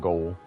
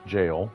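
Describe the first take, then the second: First: It begins with a hard g sound. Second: It begins with a soft j sound. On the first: The speaker calls it wrong. "not goal" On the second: The speaker calls it right. "that is how it's pronounced"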